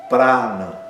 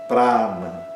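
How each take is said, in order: The two takes are said the same way.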